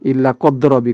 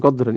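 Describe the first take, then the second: First: The word ends in a plain 'a' vowel. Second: The word ends in an 'an' with nasal n. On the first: The speaker calls it right. "Dibaca pakai fathah tetapi enggak pakai tanwin" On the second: The speaker calls it wrong. "bukan qadran"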